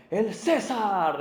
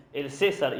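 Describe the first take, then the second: First: Slow, drawn-out proclamation, louder and higher; herald's cry. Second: Said in the usual way. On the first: Retold or imitated. Heralds before Caesar's carriage calling out, slow loud proclamation. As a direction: announce Caesar like a herald clearing the road. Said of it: "voceros que decían". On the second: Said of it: "cuando decían".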